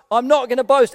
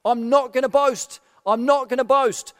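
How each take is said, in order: First: The third refusal, louder and insistent; emphatic I'm not gonna boast; firm refusal. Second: Said in the usual way. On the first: Shown as a demonstration. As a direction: put your foot down on the last one. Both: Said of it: "Paul has been saying".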